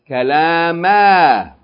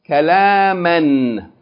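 First: The word ends with a long vowel, no n. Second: The word ends with a short vowel plus n. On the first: The reading stops on this word. "and then pause form" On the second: The reading continues on to the next word. "we're going to read it in continual form"

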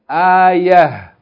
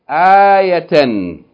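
First: The word ends with a soft h sound. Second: The word ends with a full tan sound. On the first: The reader stops on this word. "If you stop on it, just pronounce it as ha" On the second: The reading continues on without stopping. "read it first in continual mode"

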